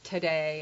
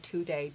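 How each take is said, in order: First: The first syllable is reduced to a weak 'ta'. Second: The first syllable is a full, clear 'to'. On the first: The speaker calls it right. "we say ta" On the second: The speaker calls it wrong. "We don't say today"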